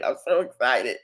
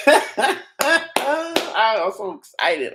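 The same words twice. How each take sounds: First: Said in the usual way. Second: Very slow, laughing "I'm so excited" stretched out. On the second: Real, not acted. Streamer giggling at his viral clip, drawn out and laughing. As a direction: laugh through every word.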